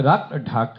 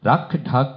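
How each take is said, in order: First: The consonants are aspirated with a puff of breath. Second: The consonants are aspirated with a puff of breath.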